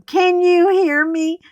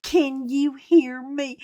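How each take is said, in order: First: Loud, high mock shout; mimicked yell. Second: Said in the usual way. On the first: Mimicking the girl yelling at her, loud and high. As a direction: yell it up high like she did. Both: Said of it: "She starts yelling".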